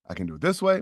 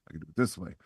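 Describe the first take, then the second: First: Trying a voice. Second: Trying another voice. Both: Shown as a demonstration.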